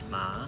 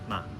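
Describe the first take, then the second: First: The pitch rises like a question. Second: The syllable is light, short, and fading. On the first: "second tone ma, almost like you're asking a question" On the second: "the neutral tone ma, almost like it's fading out"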